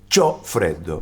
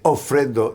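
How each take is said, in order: First: The first word begins with a 'ch' sound. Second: The first word begins with a plain vowel. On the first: The speaker shows they are Roman, not Tuscan. "los romanos" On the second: The speaker uses standard Italian. "en vez de decir ho freddo"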